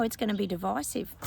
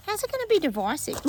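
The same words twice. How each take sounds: First: Said in the usual way. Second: High, disbelieving question; incredulous question. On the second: Real, not acted. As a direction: scoff at the claim in disbelief.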